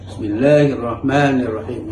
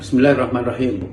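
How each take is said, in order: First: The long vowels are held for their full length. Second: The long vowels are clipped short and rushed. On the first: The recitation follows the rules of recitation. The speaker calls it right. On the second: The recitation ignores the rules of recitation. The speaker calls it wrong. "Bahkan mat tabi'inya pun seakan-akan tidak ada. ... Mana mat tabi'inya?"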